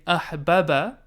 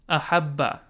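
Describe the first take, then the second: First: The two b sounds are separated by a vowel. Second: The two b sounds merge into one long b. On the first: The speaker calls it wrong. "Rather than saying ahbaba" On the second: The speaker calls it right. "I contract them. Rather than saying ahbaba, I say ahabba"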